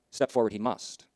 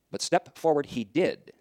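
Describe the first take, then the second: First: Said in the usual way. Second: "step forward he did" said very slowly, each word weighted; slow right down on "step forward he did"; deliberate, weighty "step forward he did"; slow solemn emphasis. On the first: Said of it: "repeated climactic sermon line". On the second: Shown as a demonstration. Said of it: "slow climactic sermon line".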